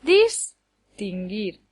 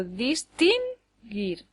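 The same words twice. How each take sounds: First: Distinguir slowly, DIS punched, then tinguir; wrongly accent Distinguir on DIS, drawn out slowly; stress on first syllable. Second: Distinguir slowly, dis-TIN-guir with TIN held; stress on middle syllable. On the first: Teacher shows a word that doesn't exist, Distinguir stressed on DIS. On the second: Teacher shows a word that doesn't exist, distinguir stressed on TIN. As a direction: wrongly lean on TIN in distinguir, drawn out. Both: Shown as a demonstration. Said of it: "No puede llevarlo en ninguna de las otras dos".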